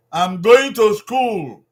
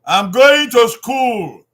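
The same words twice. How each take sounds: First: Slow, loud repeat of "I'm going to school"; slow repeated model. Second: Slow, loud teacher model of I'm going to school; slow clear model sentence. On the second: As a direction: say "I'm going to school" slowly and loudly, stressing "going". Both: Shown as a demonstration.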